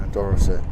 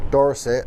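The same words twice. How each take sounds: First: Put-on "Dorset" dropped low in a West Country accent; low, jokey southwest English "Dorset". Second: Said in the usual way. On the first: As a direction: say "Dorset" with a mock southwest burr. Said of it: "he went a bit bloody southwest there".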